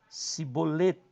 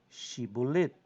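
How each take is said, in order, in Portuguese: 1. A palavra começa com o som de s. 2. A palavra começa com o som de sh. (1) "no lugar do Shim eu tenho o Samer" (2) "Eu tenho aqui o Shim"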